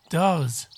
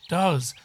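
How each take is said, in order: Both takes have the same delivery.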